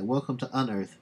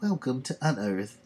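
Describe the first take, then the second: First: It is read in a natural speaking voice. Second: It is said in a put-on old-woman voice.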